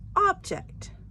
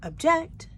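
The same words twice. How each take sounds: First: The stress is on the first syllable. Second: The stress is on the second syllable. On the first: The speaker calls it right. "The emphasis on the first part of the word" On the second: The speaker calls it wrong. "It's not object"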